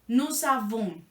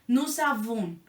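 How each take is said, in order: Both takes have the same delivery.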